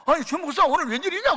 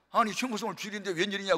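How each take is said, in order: First: Loud, much higher, stunned greeting; startled. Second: Mild surprise, a bit fast; surprised. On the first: Mentor stunned to see Choi arrive for dinner. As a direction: sound truly shocked he's here. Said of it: "또 놀래". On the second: Mentor surprised to see Choi on the Sunday, mild surprise. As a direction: sound puzzled at the visit. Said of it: "깜짝 놀라면서". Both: Retold or imitated.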